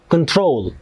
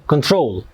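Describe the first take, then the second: Both takes have the same delivery.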